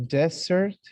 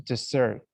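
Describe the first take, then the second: First: "Desert" with the first syllable high and rising; stress on DEsert. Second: "desert" said with the first syllable light, ending on a fall; stress on deSERT. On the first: Teacher to class, first-syllable stress on desert. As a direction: lean on the DE of "Desert". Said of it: "When you say desert". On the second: Teacher to class, second-syllable stress on desert. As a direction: shift the weight to SERT in "desert". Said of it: "the action of living". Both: Shown as a demonstration.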